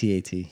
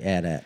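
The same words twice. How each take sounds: First: It is spelled out letter by letter. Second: It is said as two short words. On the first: The speaker calls it right. "You say it by the letters" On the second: The speaker calls it wrong. "Nobody says that"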